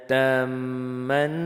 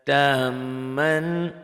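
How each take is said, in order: Both takes have the same delivery.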